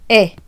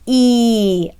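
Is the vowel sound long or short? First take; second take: short; long. First: The vowel is short, like in end. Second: The vowel is long, like in eat. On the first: "as opposed to E, as in end" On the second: "a long vowel means that the letter says its name"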